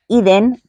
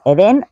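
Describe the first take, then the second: First: The stress is on the first syllable. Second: The stress is on the second syllable. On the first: It is the European pronunciation of the name. "porque está en europeo" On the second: It is the Spanish pronunciation of the name. "en español y con acento en la segunda E"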